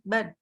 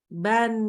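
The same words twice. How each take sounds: First: It is said hurriedly, with the final n clipped. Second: It is said unhurriedly, with a clear final n. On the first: The speaker calls it wrong. "bukan ban" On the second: The speaker calls it right. "Tidak buru-buru"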